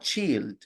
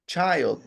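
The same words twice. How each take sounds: First: The word is cut short, like 'chi'. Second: The word is said in full, ending in 'ld'. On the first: The speaker calls it wrong. "not child" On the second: The speaker calls it right.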